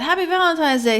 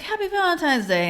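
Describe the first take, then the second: First: High cheery greeting. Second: Logan's greeting pitched even higher; son's high greeting. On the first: Mom greets son Logan on Valentine's morning, high and cheery. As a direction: own Valentine's greeting sung out higher. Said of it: "I said". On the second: Son Logan answers his mom's greeting, high and chirpy. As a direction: echo it back up high like a kid. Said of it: "He's like". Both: Retold or imitated.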